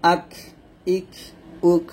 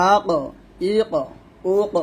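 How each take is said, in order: First: Light ক at the end of আক ইক উক; thin kaf ending. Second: Bounced, echoing ক at the end of আক ইক উক; qalqala on qaf. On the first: Teacher showing the thin kaf with sukun. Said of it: "কাফ হবে". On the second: Teacher showing the qaf qalqala bounce. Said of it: "কফে সাকিন আসলে কলকলা হবে". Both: Shown as a demonstration.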